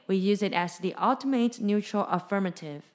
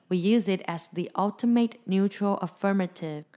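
The two takes are said the same way.

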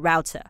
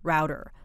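First: It is said with a British accent. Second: It is said with an American accent. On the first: "除非你是英式发音 router" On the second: "我们就把它念成 l router router"

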